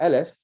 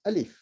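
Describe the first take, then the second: First: The second vowel sounds like 'eh'. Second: The second vowel sounds like 'ee'. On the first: The speaker calls it wrong. "It's not Aleph" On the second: The speaker calls it right. "it's actually Alif with an I"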